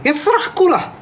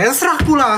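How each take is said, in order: First: High, snappy grumble in a put-on voice; high put-on snap, playfully cranky; mock snapping. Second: High mock grumble with less bite; high retake of the grumble, toned down; grumbling retake. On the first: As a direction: snap it out like a cranky Medan auntie. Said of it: "ini ngegas namanya". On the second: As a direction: grumble it again, a bit less sharp. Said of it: "Ini bukan misu".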